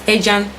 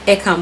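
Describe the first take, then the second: First: The name is said the local Cypriot way. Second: The name is said the English way. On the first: "That's how we pronounce it here in North Cyprus" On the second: "if you're calling it in the English form, you call it Ecan"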